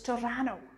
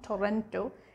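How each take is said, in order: First: It is said the relaxed way locals say it. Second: It is said as a careful spelling-based reading. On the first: This is how the locals say it. The speaker calls it right. "The locals pronounce it as Toronto" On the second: This is how newcomers say it. The speaker calls it wrong. "It's not Toronto"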